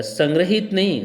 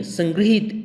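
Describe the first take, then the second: First: "संग्रहित" as san-gra-hit; wrong pronunciation. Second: "संग्रहित" as san-gri-hit, pitched up; higher "संग्रहित" with gri; correct pronunciation. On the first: ("संग्रहित" में 'ग्र' वाला गलत उच्चारण) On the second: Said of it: "तो री हो जाता है". ("संग्रहित" में 'ग्रि' की ध्वनि) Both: Shown as a demonstration.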